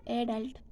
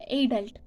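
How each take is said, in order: First: "adult" meant with second-syllable stress; American "adult", weight on the end. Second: "adult" stressed on the first syllable; British "adult", weight at the front. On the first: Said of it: "American pronounce as". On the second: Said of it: "British pronounce, uh, adult as". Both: Shown as a demonstration.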